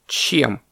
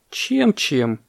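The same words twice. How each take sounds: First: A touch of surprise on "Чем?"; short, mildly puzzled question; surprised question. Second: Mildly sighing echo, a bit higher. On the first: Parrot asks what fills the mouth, surprised. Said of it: "удивился попугай". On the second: Baby elephant answers the parrot, sighing. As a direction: repeat it with a weary sigh. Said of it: "вздохнул слонёнок". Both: A narrator's reading.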